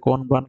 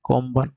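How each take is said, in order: First: The word is said with an n before b. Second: The word is said with an m before b. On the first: "লেখা আছে কোনবান" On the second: "উচ্চারিত হবে কোম্বান"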